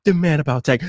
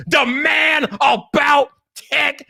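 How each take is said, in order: First: Said in the usual way. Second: High shout with MAN and ABOUT drawn out; WWE promo. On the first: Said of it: "not the man about tech". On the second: Shown as a demonstration. Streamer showing how his catchphrase goes, shouted WWE promo. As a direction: stretch it slowly like a wrestling announcer. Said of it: "cut like a W W E promo".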